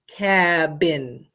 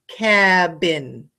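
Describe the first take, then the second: The two takes are said the same way.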